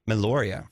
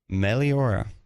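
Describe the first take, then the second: First: It is said as Meloria. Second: It is said as Meliora. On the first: The speaker calls it wrong. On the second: The speaker calls it right.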